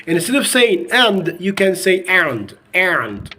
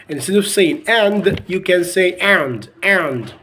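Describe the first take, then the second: Both takes have the same delivery.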